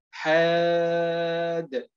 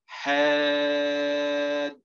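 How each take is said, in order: First: حاد said slowly with the final dal bounced in a qalqala echo; wrong qalqala demo. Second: حاد with a long alif before a smooth dal; lengthened madd. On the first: Teacher showing students what not to do, bounced dal. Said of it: "ننتبه أننا لن نقلقل الدال الساكنة". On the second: Teacher explaining the necessary madd, stretching the vowel. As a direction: draw out the alif of حاد slowly. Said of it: "لكن هنا عندما نقول حاد". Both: Shown as a demonstration.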